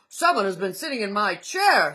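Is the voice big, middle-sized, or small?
big. It is said in a great big voice.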